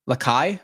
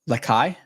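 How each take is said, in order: First: The name sounds like Makai with an L. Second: The name sounds like Makai with an L.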